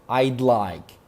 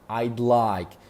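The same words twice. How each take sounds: First: I and would are contracted together. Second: I and would are contracted together.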